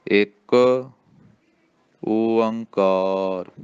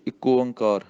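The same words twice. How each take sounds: First: ਇੱਕ ਓੰਕਾਰ very slow, ਇੱਕ stressed; ਹੌਲੀ ਸਹੀ ਉਚਾਰਨ; slow correct take. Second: ਇੱਕੋ ਓਂਕਾਰ rattled off fast; ਛੇਤੀ ਛੇਤੀ ਗਲਤ ਉਚਾਰਨ; rushed wrong way. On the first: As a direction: model it slowly for the class. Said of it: "ਇਹਦਾ ਉਚਾਰਨ ਕਰਨਾ". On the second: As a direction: hurry it as a bad example. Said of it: "ਇੰਝ ਨਹੀਂ ਕਹਿਣਾ". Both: Shown as a demonstration.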